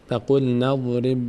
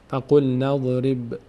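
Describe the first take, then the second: Both takes have the same delivery.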